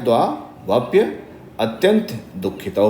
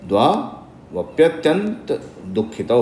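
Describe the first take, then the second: First: There is a break between dvavapya and atyanta. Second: The words run together without a break before atyanta.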